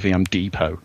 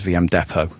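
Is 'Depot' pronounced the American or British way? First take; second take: American; British. First: Depot is said with an American pronunciation. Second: Depot is said with a British pronunciation. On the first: "they've beat me to submission. I now say VM Depot" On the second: "It's great to hear somebody say it as VM Depot"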